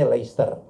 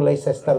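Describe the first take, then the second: First: "Leicester" in two syllables, LES-ter; correct English Leicester. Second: "Leicester" read out as written, Lei-ces-ter; Leicester as spelt. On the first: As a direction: drop the middle of "Leicester", like Lester. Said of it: "tuh bacanya Leicester". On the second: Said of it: "kalau Leicester tuh bacanya Leicester". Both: Shown as a demonstration.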